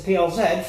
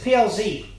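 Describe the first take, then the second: First: The last letter is said as zed. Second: The last letter is said as zee.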